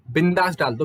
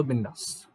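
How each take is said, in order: First: Said in the usual way. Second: Bindass repeated much softer, falling; a quiet reassuring repeat of Bindass; soft echo. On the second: Shown as a demonstration.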